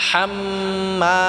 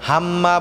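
First: হাম্মা with a pressed throat ha and held mim; throaty ha. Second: হাম্মা with a light plain ha; wrong plain ha. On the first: Teacher demonstrating throaty ha for students. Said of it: "গলায় চাপ দিয়ে উচ্চারণ করব". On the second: Teacher showing mistake, plain ha in হাম্মা. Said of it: "হাম্মা বললেও হবে না". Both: Shown as a demonstration.

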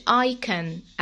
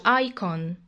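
First: Icon with a reduced last vowel, "EYE-kən"; first pronunciation variant. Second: Icon with a full last vowel, "EYE-kon"; alternative pronunciation. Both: Shown as a demonstration. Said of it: "message icon أو icon".

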